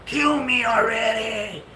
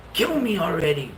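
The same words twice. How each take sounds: First: Higher, slower, drawn-out eerie plea. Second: Mumbled sleep-talking plea; eerie mumbled plea. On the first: Wife repeats her sleep plea, slower and higher. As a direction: stretch it out like a haunted moan. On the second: Wife murmurs in her sleep, eerie sleep talk. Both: Retold or imitated.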